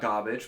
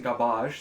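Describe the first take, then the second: First: The word is said in the ordinary way. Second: The word is said in a fancy, foreign-sounding way.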